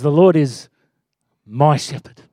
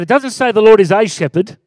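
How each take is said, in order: First: "my" lifted with a rising tune; stress on my. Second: "a shepherd" with a light plain "a"; stress on a. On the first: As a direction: lean on "my" in "my shepherd". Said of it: "It says". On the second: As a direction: say "is a shepherd" evenly with no weight on "a". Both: Shown as a demonstration.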